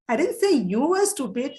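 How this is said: The word "you" carries the strongest stress. The focus is on the person being talked about. "when you want to emphasize on this person, on this subject, you, you are stressing"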